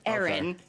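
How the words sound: The name is said in a Boston accent. "I'm from Boston, so that's how my family would say it"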